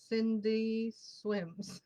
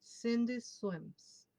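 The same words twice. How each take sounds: First: Cindy swims said very slowly, every sound placed; careful pronunciation. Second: Cindy swims said slowly, careful final S on swims; careful pronunciation. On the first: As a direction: drag out Cindy swims, thinking over each sound. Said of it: "I have to really think about it". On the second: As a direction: slowly place the S at the end of swims. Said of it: "let me see if I can say it correctly". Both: Shown as a demonstration.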